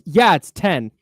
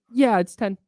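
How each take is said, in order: First: It is said in a forceful tone. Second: It is said in a gentle tone.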